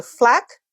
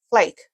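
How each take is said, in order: First: 'flak' with the vowel of 'fat'; short A. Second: 'flake' with the vowel of 'ape'; long A. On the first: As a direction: say 'flak' to rhyme with 'back'. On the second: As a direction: say 'flake' as FLAYK. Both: Shown as a demonstration. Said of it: "you can see the difference".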